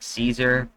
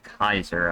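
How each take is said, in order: First: The word begins with an s sound. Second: The word begins with a k sound. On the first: The speaker calls it wrong. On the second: The speaker calls it right.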